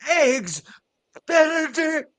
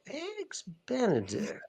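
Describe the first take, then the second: First: It sounds angry. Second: It sounds suspicious.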